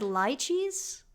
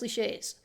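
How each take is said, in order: First: The word is pronounced in a plain English way. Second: The word is pronounced in a French-sounding way. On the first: "I've heard it said lychees, but I that feel that feels wrong" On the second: "let's pronounce it in a French way"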